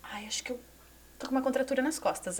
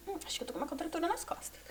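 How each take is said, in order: First: Said in the usual way. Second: Whispered. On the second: Retold or imitated. Muttered retelling of back pain.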